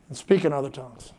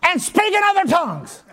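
First: It is said weakly, without conviction. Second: It is said forcefully, in an angry tone. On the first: The speaker does not really believe it. The speaker calls it wrong. "she said like this. ... there wasn't enough faith to blow out a candle hardly" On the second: The speaker is now fully convinced. The speaker calls it right. "the last time she said it like this. ... She was just mad"

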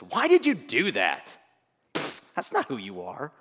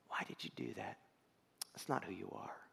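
First: It is said in a harsh, condemning tone. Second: It is said in a gentle, caring tone. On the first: The speaker is accusing and condemning the listener. The speaker calls it wrong. "the voice that says" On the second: The speaker is lovingly guiding the listener. The speaker calls it right. "God saying"

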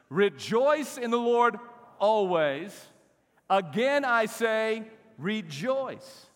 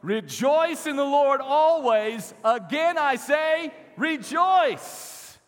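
First: It is read in a calm, plain way. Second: It is read with loud, lively energy.

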